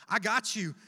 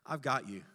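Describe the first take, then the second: First: Louder, confident promise; firm reassurance. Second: Low, calm promise; tender reassurance. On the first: Jesus reassuring the pastor, firm and louder. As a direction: repeat it with conviction. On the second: Jesus reassuring the pastor by name, tenderly. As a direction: settle them gently. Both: Retold or imitated. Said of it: "This is what Jesus says to me".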